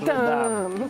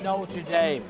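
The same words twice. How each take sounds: First: It is pronounced with a French-style accent. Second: It is pronounced with an English-style accent. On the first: The speaker calls it right. "You go to" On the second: The speaker calls it wrong. "You don't go to"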